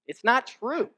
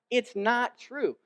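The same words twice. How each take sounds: First: NOT pushed high and loud; pleading denial. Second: Dragged out slowly, high and loud; slow pleading denial. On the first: Embarrassed son protests to his dad, high and loud. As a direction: lean hard on not in not true. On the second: Son repeats it to his dad, slowly and pleading. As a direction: stretch every word of it's not true. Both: Retold or imitated. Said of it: "and I think".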